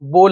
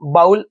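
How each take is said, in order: First: The vowel sounds like 'oh' in 'go'. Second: The vowel sounds like 'ow' in 'cow'. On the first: The speaker calls it right. "बोल बोल आहे" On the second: The speaker calls it wrong. "बाउल याचा pronunciation बाउल असा नाही"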